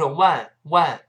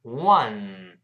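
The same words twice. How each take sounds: First: "one" mispronounced as "wan", vowel too far forward; wrong one. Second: "One" as "wuh-n", lips rounded then nasal n; "One" with the vowel further back; correct one. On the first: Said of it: "而不是one". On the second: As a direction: say "One" drawn out into a humming n. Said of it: "再走鼻音". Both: Shown as a demonstration.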